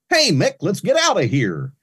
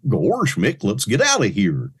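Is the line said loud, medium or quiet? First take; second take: medium; quiet. First: It is said moderately loud, as across a room. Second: It is said quietly, as to someone close.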